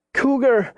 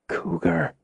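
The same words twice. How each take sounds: First: High-pitched frightened call; alarmed cry. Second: Hushed, higher, frightened word; barely breathed. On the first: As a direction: force the word out high and urgent. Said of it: "She managed to get the word out". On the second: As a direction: breathe it out softly, scared to move. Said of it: "She barely breathed the word". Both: A narrator's reading.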